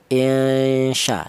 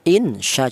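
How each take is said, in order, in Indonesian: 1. Bunyi n dilembutkan dan sebagian disamarkan. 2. Bunyi n dibaca penuh dan jelas. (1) "maka cara bacanya non mati ini disamarkan ya" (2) "Jangan dibaca idhar, jangan dibaca jelas. Insya jangan"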